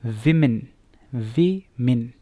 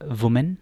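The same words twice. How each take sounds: First: विमेन as "WIM-in", first syllable strong; correct pronunciation. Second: वुमेन as "wu-men", spelled-out vowels; common mispronunciation. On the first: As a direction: model विमेन with short i sounds. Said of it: "असल इसकी pronunciation क्या है". (विमेन का सही उच्चारण, "विमिन") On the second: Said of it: "कैसे pronounce करते हैं लोग". (वुमेन का आम गलत उच्चारण) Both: Shown as a demonstration.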